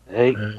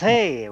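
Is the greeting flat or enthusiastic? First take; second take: flat; enthusiastic. First: It is said flatly, without enthusiasm. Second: It is said with lively enthusiasm.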